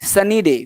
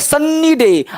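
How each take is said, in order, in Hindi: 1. n ध्वनि एकल है और छोटी बोली जाती है। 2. n ध्वनि दोहरी है और लंबी बोली जाती है।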